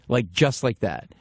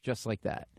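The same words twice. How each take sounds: First: "just like that" drawn out word by word; slow right down and weight "just like that"; slow emphatic repeat. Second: Said in the usual way. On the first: Real, not acted. Comic marvels at the easy yes, slow emphatic "just like that".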